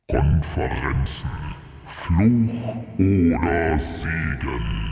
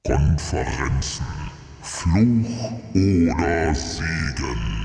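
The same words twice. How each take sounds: First: It is said in a put-on voice. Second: It is said in a put-on voice.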